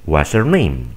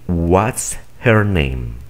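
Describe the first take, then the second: First: The h is dropped and the words are linked. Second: The h in 'her' is clearly pronounced. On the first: This is how native speakers say it. "simplemente omiten este sonido y unen estos" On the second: This is formal speech. "de una manera muy formal"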